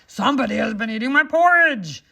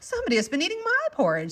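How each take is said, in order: First: It is said in a deep, rough, gruff voice. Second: It is said in a medium, ordinary voice. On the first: A big character is speaking. "in a great rough gruff voice" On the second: A middle-sized character is speaking. "in her middle voice"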